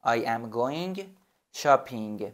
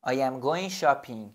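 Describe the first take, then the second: First: Said in the usual way. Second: "I am going shopping" slowly, word by word; slow model sentence. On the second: Shown as a demonstration. Teacher to student, a slow model sentence. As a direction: say it slowly for learners.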